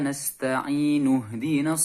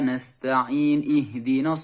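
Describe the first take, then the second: First: The n takes a u vowel and joins ihdina. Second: The n has no vowel before ihdina. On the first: The speaker calls it right. "Nasta'inu diwasolkan ke ihdina, maka alifnya hilang, langsung nun domah bertemu dengan huruf ha" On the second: The speaker calls it wrong. "Karena nasta'in kita uh, sukunkan kemudian ihdinas"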